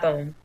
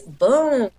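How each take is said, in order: First: The vowel is short and clipped. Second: The vowel is long and drawn out. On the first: The speaker calls it wrong. "It's not boom" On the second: The speaker calls it right. "The O's are definitely elongated"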